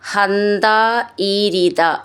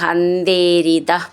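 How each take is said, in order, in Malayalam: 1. ആ രണ്ട് വാക്കുകളും വേർതിരിച്ചാണ് ഉച്ചരിക്കുന്നത്. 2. ആ രണ്ട് വാക്കുകളും ചേർത്താണ് ഉച്ചരിക്കുന്നത്.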